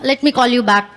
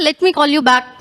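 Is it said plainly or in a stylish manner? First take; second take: plainly; stylish. First: It is said in a plain, ordinary way. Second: It is said in a showy, stylish way.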